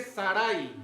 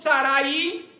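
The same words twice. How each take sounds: First: Sarai said as two syllables, SA-rai; correct pronunciation. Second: Sarai said with the stress moved to the i, sa-RA-i; wrong stress. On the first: Preacher correcting the congregation's Sarai, said SA-rai. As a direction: say Sarai the right way, SA-rai, quietly. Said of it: "Es la pronunciación correcta". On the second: Preacher showing the congregation the wrong way, sa-RA-i. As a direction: say Sarai as three beats, sa-RA-i, the wrong way. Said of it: "Ahí dice Sarai". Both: Shown as a demonstration.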